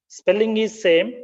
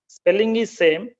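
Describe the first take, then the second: The two takes are said the same way.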